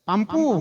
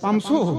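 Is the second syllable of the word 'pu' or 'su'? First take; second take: pu; su. First: The second syllable is said as 'pu'. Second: The second syllable is said as 'su'. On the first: Someone who cannot pronounce the word says it. The speaker calls it wrong. "ইয়ার বউয়ের উচ্চারণ হচ্ছে না" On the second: This is the proper form of the word. The speaker calls it right. "আর সেটা পামসু"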